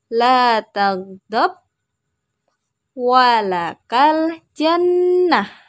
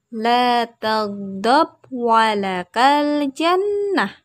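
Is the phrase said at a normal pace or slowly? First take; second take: slowly; normal. First: The phrase is said slowly and carefully. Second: The phrase is said at a normal pace.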